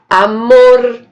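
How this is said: The final R is said as in São Paulo. "lá em São, em São Paulo"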